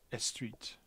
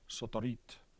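First: An extra vowel is added at the start. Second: Extra vowels are added between the consonants. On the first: This conforms to Spanish syllable structure. "a Spanish speaker might pronounce street as estreet" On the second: This conforms to Japanese syllable structure. "A Japanese speaker would be more likely to pronounce it something like sotorit"

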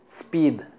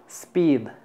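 First: The word begins directly with the s sound. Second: The same.

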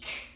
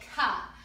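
First: A clipped consonant sound with no vowel after. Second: The consonant is followed by an added uh vowel. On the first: The speaker calls it right. "the letter C" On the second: The speaker calls it wrong. "we don't say ka"

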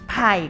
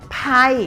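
First: The pitch stays low and level. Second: The pitch falls from high to low. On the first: "ไผ่เป็นเสียงเอก" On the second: "ไผ่เป็นเสียงโท"

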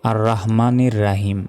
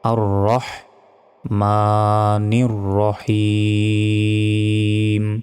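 First: The last word starts with a broad open 'a'. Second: The last word starts with an 'o'-like vowel. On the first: The speaker calls it wrong. "আমরা অনেকে বলি আর রহমানির রাহিম, এইভাবে নয়" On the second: The speaker calls it right. "বলতে হবে"

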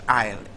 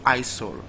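First: The S is silent in the word. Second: The S is sounded in the word. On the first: The speaker calls it right. "the letter S is silent" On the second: The speaker calls it wrong. "It's not isol. So never you make that mistake"

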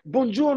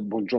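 First: The greeting is loud and over-eager. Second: The greeting is calm and restrained. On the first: The greeting is exaggerated to win favour. The speaker calls it wrong. "Pas besoin de crier" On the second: The greeting is simply respectful. The speaker calls it right. "nous, on n'est pas comme ça"

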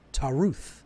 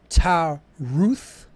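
First: The word is said quickly, running together. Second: The word is said at an unhurried, normal pace.

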